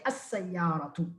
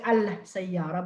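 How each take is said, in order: First: As-sayyaratu with no l and a doubled s; assimilated lam. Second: Al-sayyara with the l heard before the s; wrongly sounded lam. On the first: Teacher giving students the right form, assimilated lam. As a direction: lean softly on the double s in as-sayyaratu. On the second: Teacher showing students the wrong form, sounded lam. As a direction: put a clear l into al-sayyara. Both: Shown as a demonstration. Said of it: "but say as-sayyaratu".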